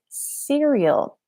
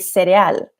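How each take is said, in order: First: It is said with an English pronunciation. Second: It is said with a Spanish pronunciation.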